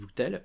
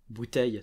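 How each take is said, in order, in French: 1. La fin a un [l] simple, sans son [j]. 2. La fin a un son de glide [j].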